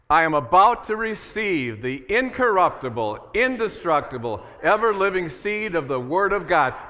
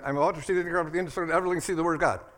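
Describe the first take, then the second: First: It is said more slowly and deliberately. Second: It is rushed and said fast.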